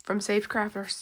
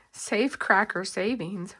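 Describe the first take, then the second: First: "Safe Cracker" slurred, said "Cracker" as "Crafer"; tongue-tied slip. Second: "Safe Cracker" said slowly and clearly, a crisp f and k; careful correction. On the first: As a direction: trip over "Safe Cracker", quick and garbled. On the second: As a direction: spell out "Safe Cracker" slowly after a slip. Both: Real, not acted. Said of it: "Whew, that was a tongue twister".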